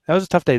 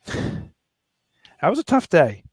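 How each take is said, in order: First: Said in the usual way. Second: Slow, drawn-out words, holding back tears; choked up. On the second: Real, not acted. Recalling his daughter's piggy bank, slow and choked up. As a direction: let it drag out as the feeling catches you. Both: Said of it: "I'm starting to choke up".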